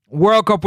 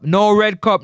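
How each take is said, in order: First: "World Cup" with an r-coloured "World" /wə˞l/ running into "Cup"; right "World Cup". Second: "No red cup" said as it sounds, with a clear "red" /ɹɛd/ before "cup"; wrong "red cup". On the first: Streamer showing viewers how it should sound. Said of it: "we say". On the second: Streamer mocking the mispronunciation with "red cup". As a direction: says "red cup" for World Cup, then corrects himself. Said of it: "we say, man". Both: Shown as a demonstration.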